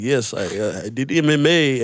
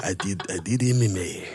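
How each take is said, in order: First: Mock Russian-accented father. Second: Lower, softer put-on Spanish accent; badly faked Spanish accent, slipping toward African; attempted Spanish accent. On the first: Comic imitating a friend's father, loose Russian accent. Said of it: "Why is it a Russian accent?". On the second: Comic retrying the father's line, low faked Spanish accent. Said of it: "Do Spanish accent".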